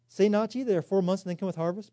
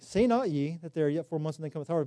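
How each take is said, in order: First: It is said as a question. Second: It is said as a flat statement.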